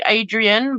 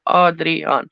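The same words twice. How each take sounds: First: Adrian said the English way, "AY-dree-un"; English pronunciation. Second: Adrian said "AH-dree-ahn"; double-A pronunciation. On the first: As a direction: start Adrian with a long AY, weak last vowel. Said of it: "like Adrian, but two A's". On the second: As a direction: open AH at both ends of Adrian, full last syllable. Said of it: "two A's in the second syllable". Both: Shown as a demonstration.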